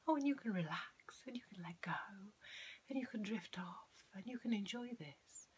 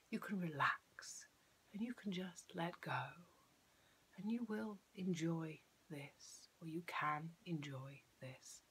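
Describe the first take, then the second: First: High, floaty lilt with no downward inflection; wispy, flowery suggestion voice; airy-fairy hypnotist. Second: "relax", "go" and "this" landed firmly with a falling tone; measured and certain, dropping the pitch on "relax", "go" and "this"; downward inflection. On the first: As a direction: drift airily through each suggestion, never landing it. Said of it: "example of how not to do it". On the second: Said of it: "when you've got that downward inflection". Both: Shown as a demonstration.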